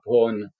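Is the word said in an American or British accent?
British. It is said in a British accent, like 'pawn'. The speaker calls it wrong. "it sounds like I'm saying the word P A W N in my accent"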